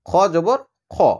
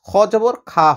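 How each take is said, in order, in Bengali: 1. শেষের স্বরটি একটি ভারী, ছোট 'a'। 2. শেষের স্বরটি একটি লম্বা, হালকা 'aa'। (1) "মোটা উচ্চারণ হয়" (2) "হবে না"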